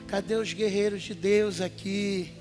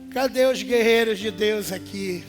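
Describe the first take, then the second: First: It is said at a quieter volume. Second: It is said at a louder volume.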